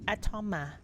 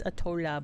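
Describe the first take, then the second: First: Atoma said with an M, a-TOH-ma; correct name. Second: Atola said with an L instead of the M; mock the wrong "Atola" with an L; mispronounced name. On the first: Shown as a demonstration. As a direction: say "Atoma" with a clear M, no L. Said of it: "There's no L in it". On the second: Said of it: "Sean said it's Atola".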